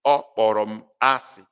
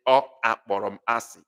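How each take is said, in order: First: Said in the usual way. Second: Extra "a" voiced between Ọ and kpọrọ in "Ọ akpọrọ m asị"; "Ọ akpọrọ" with a separate "a" after the Ọ; wrong extra vowel. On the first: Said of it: "You cannot say". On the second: Shown as a demonstration. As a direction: say "Ọ akpọrọ m asị" quickly, with two vowels colliding at the start. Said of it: "It doesn't flow".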